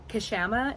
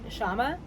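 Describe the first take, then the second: First: The name begins with a pronounced K sound. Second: The name begins with sh, K silent. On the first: This is the pronunciation given by a reference source. "is how Wiki says we should say it" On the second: This is how news anchors say the name. "news anchors and stuff called call it"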